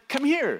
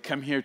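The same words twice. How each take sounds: First: The voice sounds warm and inviting. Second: The voice sounds stern and scolding. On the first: The dog is welcome to come. "and then he just comes running and bounding" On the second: The dog is in trouble. "He knows he's done something wrong"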